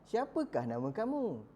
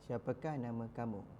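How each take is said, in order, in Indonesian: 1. Diucapkan ekspresif, dengan perasaan bertanya penuh. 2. Diucapkan datar, tanpa perasaan bertanya. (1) "Sepatutnya awak penuh penuh perasaan" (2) "Macam tu ke cara kita bertanya?"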